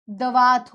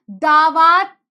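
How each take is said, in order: First: दवात said with a short first अ, slowly; correct form. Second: दावात said with a long first आ, louder; wrong form. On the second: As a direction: say दावात with a stretched, loud first syllable. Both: Shown as a demonstration. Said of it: "दवात होता है".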